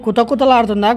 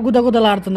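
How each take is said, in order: First: కుత కుతలాడుతుందా with k and t, as one option; కుత కుతలాడుతుందా starting on a hard k; kuta-kuta sound. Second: గుద గుదలాడుతుందా with g and d, as the other option; గుద గుదలాడుతుందా starting on a soft g; misheard guda-guda. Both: Shown as a demonstration. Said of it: "confirm, confirmation చెప్పండి".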